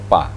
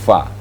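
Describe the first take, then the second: First: It starts with the lips closed and then released. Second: It starts with breathy airflow between lip and teeth. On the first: The speaker calls it wrong. "bukan pa" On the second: The speaker calls it right. "menghembuskan napas terlebih dahulu, ada anginnya"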